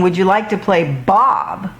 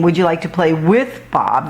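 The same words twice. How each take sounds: First: "Bob" stressed and falling. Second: "with" stressed, a real question. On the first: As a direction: land on "Bob" to suggest a pretend game. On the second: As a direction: lean on "with" to ask about playing together. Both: Shown as a demonstration. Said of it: "They're saying".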